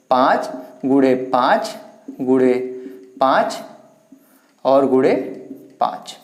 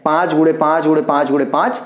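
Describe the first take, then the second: First: Slow and low, spaced out while writing on the board; spelled out slowly, word by word; slow dictation. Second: Said in the usual way. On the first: Shown as a demonstration. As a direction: drag out पाँच गुणे पाँच, pausing between each word. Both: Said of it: "पाँच को अगर हम चार बार लिख देते हैं".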